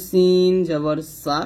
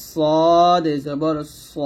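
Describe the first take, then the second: First: সিন with a light, thin hissing s; thin sin. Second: Slow সদ with a heavy, rounded s; thick sod. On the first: Teacher contrasting thin with thick, thin sin. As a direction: keep the s of সিন thin and clear. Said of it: "তবে সিন পাতলা". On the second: Teacher contrasting thick with thin, thick sod. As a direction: thicken and stretch সদ. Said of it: "সদ মোটা". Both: Shown as a demonstration.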